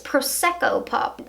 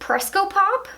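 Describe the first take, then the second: First: The first word is said in full. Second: The first word is said clipped and shortened. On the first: The speaker calls it right. "but it's Prosecco Pop" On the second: The speaker calls it wrong. "I always mess that one up"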